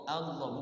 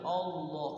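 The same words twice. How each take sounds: First: The first vowel sounds like an open 'a'. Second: The first vowel sounds like a rounded 'o'. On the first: The speaker calls it right. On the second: The speaker calls it wrong.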